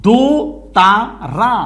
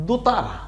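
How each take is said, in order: First: দোতারা very slow, in three separate beats; syllable by syllable. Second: Said in the usual way. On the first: Shown as a demonstration. Teacher shows learners how syllables form a word, syllable by syllable. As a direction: pause between দো, তা and রা. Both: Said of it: "দেখলেই তো শব্দ মিলে যাচ্ছে".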